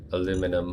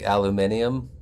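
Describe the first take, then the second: First: "Aluminum" with four syllables, a-LOO-mi-num; American pronunciation. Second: "aluminium" with five syllables, al-yoo-MIN-ee-um; British pronunciation. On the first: His own American way, "Aluminum". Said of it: "I pronounce it the American way". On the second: Mocking Canadians, British-style "aluminium". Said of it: "I don't actually pronounce it aluminium". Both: Shown as a demonstration.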